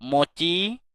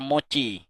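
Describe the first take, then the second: First: "Mochi" lifted at the end like a question; rising intonation. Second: "mochi" on a level tone, no lift at the end; flat tone. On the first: Owner soothing a cat by name, questioning rise on "Mochi". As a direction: let the last syllable of "Mochi" swing upward. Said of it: "dengan nada yang naik di akhir, seperti bertanya". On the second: Boss summoning an employee for a scolding, flat "mochi". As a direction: say "mochi" evenly, without a questioning rise. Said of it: "memanggil dengan nada datar mochi". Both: Shown as a demonstration.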